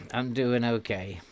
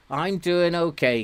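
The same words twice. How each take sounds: First: Said in the usual way. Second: "I'm doing okay" said higher and louder with a falling "doing"; emphatic reply. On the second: Real, not acted. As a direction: answer "I'm doing okay" brightly and firmly.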